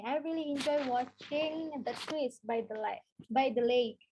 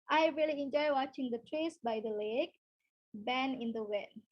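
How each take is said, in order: First: Unhurried, clear example; slow teacher read; slow model sentence. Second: Careful teacher reread; slow clear demo line; slow model sentence, slowing to the end. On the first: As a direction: read slowly for the class. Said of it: "kalian bisa pakai ini". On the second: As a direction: restart the example, easing down slowly. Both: Shown as a demonstration.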